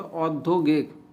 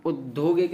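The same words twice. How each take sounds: First: औद्योगिक opening on full औ; correct pronunciation. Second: औद्योगिक opening on उ; wrong pronunciation. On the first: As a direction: round out the first औ of औद्योगिक. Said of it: "नहीं हो तो औद्योगिक". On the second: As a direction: shrink the first vowel of औद्योगिक to उ. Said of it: "औद्योगिक नहीं हो तो". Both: Shown as a demonstration.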